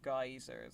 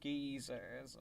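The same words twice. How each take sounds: First: The word is said in an American way. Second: The word is said in a non-American way.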